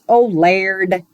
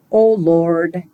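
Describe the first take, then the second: First: Wannabe Irish "Lord", vowel turned to "laird"; badly faked Irish accent. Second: Oh Lord in plain American; American accent, a simple spoken invocation; American Yankee accent. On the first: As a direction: attempt an Irish accent on a short prayer. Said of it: "I use an Irish". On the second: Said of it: "in an American Yankee accent". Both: Shown as a demonstration.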